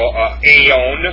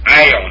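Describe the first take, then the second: First: The first vowel sounds like 'ay'. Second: The first vowel sounds like 'eye'. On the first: The speaker calls it wrong. "Or no, actually, it's ion. I'm sorry, I made a mistake" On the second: The speaker calls it right. "alpha iota, is pronounced I"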